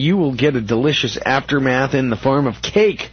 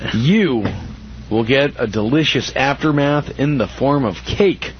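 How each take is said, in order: First: It is read at a normal pace. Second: It is read slowly and deliberately.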